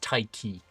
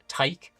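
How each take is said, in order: First: The name ends on a vowel sound. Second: The name ends on a consonant sound. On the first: The speaker calls it right. "and it's Taiki" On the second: The speaker calls it wrong. "I kept pronouncing it uh, Taik"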